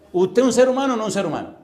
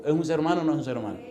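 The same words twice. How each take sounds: First: Loud, high pressing question; forceful challenge. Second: Said in the usual way. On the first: Real, not acted. Preacher challenging a listener's honesty, loud and high. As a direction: demand an honest answer at raised voice.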